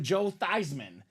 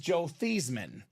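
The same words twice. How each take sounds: First: The surname rhymes with Heisman. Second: The surname does not rhyme with Heisman. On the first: This pronunciation was adopted for a publicity campaign. "Let's change the pronunciation of your name to Joe Theismann. Theismann for the Heisman" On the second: This is the family's original pronunciation. "His name is Joe Theismann"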